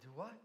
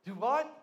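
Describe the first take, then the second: First: Soft, low questioning; quiet disbelief. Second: Raised, incredulous question; loud disbelief. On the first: Dangling man questions God's instruction, quietly incredulous. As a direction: ask it softly, with a rising end. Climber doubts the heavenly voice. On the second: Dangling man cannot believe God's instruction, loudly incredulous. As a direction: blurt it with a sharp rise. Climber asks again, more incredulous. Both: Retold or imitated.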